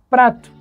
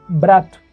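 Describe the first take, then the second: First: The word starts with a p sound. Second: The word starts with a b sound. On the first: "eu falo prato" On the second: "ele diz brato"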